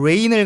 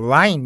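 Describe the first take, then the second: First: It is said with a plain, standard vowel. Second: It is said with an Australian-style 'eye' vowel. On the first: "비를 말하는 레인을" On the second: "그 라인 이렇게 발음을 하느냐"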